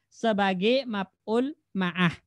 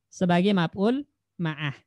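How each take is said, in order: Both takes have the same delivery.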